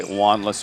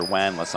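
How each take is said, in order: First: "Wanless" in the first of two ways; first pronunciation guess. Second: "Wanless" with its vowel changed from the first try; alternative pronunciation guess. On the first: Announcer unsure of a player's surname, first try at "Wanless". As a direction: offer "Wanless" as one possible pronunciation. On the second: Announcer unsure of a player's surname, alternative try at "Wanless". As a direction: offer "Wanless" the other possible way. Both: Shown as a demonstration. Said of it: "I'm not sure how it's pronounced".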